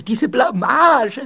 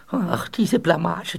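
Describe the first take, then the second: First: Slow, loud wail swelling on Blamage; mortified wail. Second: Slow, drawn-out sigh of shame; embarrassed lament. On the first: Ghost stuck in the wall fears discovery, loud mortified wail. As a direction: wail it out louder, dragging the word. Same lament repeated, building. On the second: Ghost stuck in the wall bemoans his disgrace, slow lament. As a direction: moan it slowly, mortified. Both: Acted.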